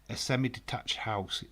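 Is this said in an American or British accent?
British. It is said in a British accent.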